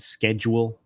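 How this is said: It is pronounced the American way. "like we say it here in the States"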